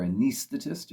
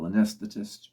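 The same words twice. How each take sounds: First: Anesthetist said with a long ee, "a-NEES-thetist"; alternate pronunciation. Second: Said in the usual way. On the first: Shown as a demonstration. Reviewer giving Peter's pronunciation on the recording, Anesthetist with a long ee. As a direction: say Anesthetist as "uh-NEES-thuh-tist". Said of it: "follow the pronunciation that Peter uses". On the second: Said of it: "if you follow the pronunciation".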